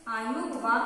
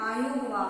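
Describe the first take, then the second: No difference in how they are said.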